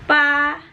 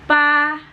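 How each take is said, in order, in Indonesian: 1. Nadanya tetap tinggi dan datar. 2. Nadanya tetap tinggi dan datar.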